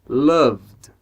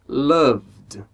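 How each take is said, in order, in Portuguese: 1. O V vai direto para o D final. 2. O V vai direto para o D final.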